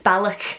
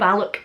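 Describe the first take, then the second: First: The final consonant is harsh and throaty, like spitting. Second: The final consonant is plain, not throaty. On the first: The speaker calls it right. "It's got a k sound, as if you're going to spit" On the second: The speaker calls it wrong. "it's no Balloch"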